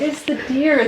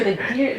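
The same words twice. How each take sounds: First: High falling "deer", explaining with amusement; the supervisor lets her in on the joke; retold supervisor. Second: "deer" repeated with a light rise; retold supervisor. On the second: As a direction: echo the word, half-laughing. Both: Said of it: "And he's like".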